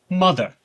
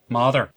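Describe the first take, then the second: First: It is spoken in a plain, non-Irish accent. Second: It is spoken in a Northern Irish accent.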